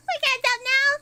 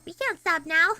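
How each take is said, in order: First: High, loud outcry; raised, insistent refusal; loud protest. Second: Said in the usual way. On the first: Real, not acted. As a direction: cry it out in protest, pitched up. Repeats protest much higher, louder.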